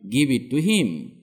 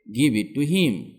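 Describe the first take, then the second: No difference in how they are said.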